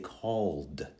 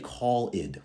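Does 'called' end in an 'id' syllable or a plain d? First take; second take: plain d; id syllable. First: The ending is a plain d sound. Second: The ending is an extra 'id' syllable. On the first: The speaker calls it right. "we say called, simply into the D sound" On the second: The speaker calls it wrong. "you don't say call id"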